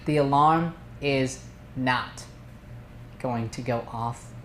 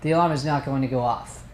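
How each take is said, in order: First: It is said slowly with weight. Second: It is said fast and rushed.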